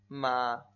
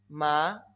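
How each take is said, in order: First: The syllable is said in the third tone. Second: The syllable is said in the second tone.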